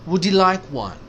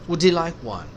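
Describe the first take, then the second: Both takes have the same delivery.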